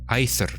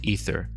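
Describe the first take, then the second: First: The first vowel glides from ah to e. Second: The first vowel is a single steady e sound. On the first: The speaker calls it right. "in Latin it was a diphthong? Ah, and then E" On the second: The speaker calls it wrong. "most people pronounce it like E"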